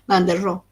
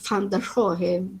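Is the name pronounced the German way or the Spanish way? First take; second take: Spanish; German. First: The name is said with Spanish-style sounds. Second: The name is said with German-style sounds. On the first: "el castellanizado" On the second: "creo que es la pronunciación"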